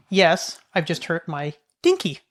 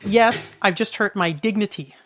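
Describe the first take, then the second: First: "dinky" set apart after a short pause; misheard word. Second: Slow, deliberate mock reply; retold mom's answer. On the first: Retold or imitated. Child mishears mom's answer, "dinky" delivered as the punchline. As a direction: land on "dinky" in place of the real word. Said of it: "My little ears hear". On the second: Mom answers her worried child, imitated slow reply. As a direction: say it slowly, landing on "dignity". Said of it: "she says to me".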